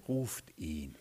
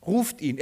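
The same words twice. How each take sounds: First: Low, hushed, composed order; quiet command. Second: Said in the usual way. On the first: Retold or imitated. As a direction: drop right down and say it softly. Jesus stops and quietly gives the order. (leiser, tiefer Befehl)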